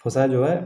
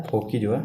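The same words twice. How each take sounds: First: फोसा said with an s sound, FOH-sa; firm correction: फोसा, not फोकी; corrected pronunciation. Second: फोकी said with a hard k, poh-kee, by mistake; teacher catches himself saying फोकी with a k; wrong word slip. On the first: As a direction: fix it to फोसा, with s instead of k. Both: Shown as a demonstration. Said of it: "sorry, मैं भी फोकी बोल रहा हूँ यार".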